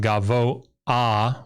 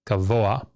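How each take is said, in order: First: A glottal stop separates the o and the ah. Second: The o flows smoothly into the ah. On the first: The speaker calls it wrong. "which would require an uh, you know like a, a glottal stop" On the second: The speaker calls it right. "it gives it just a hint of an a sound"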